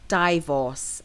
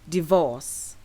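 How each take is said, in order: First: It is said the way heard in Malaysia. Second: It is said the way heard in Britain. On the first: The speaker calls it wrong. "I've come across people pronouncing it divorce" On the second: The speaker calls it right. "The correct way to pronounce this word is divorce"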